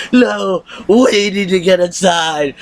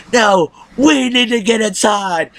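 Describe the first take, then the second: First: Mocking Deanna again. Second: Slow, high put-on voice mocking her; mocking Deanna. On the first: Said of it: "She's like". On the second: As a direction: drag it out like a wannabe badass. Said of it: "Deanna was like".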